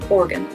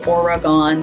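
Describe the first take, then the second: First: The syllables run together without separation. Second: The three syllables are said clearly apart. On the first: This is how locals say it. The speaker calls it right. "They just say Oregon" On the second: This is how it is learned outside the region. The speaker calls it wrong. "separate the three syllables"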